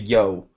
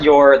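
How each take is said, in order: First: The word ends in a vowel without R. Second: The word ends with a clear R sound. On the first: The speaker calls it right. "It's actually Yo" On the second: The speaker calls it wrong. "it's not your. They mispronounced it"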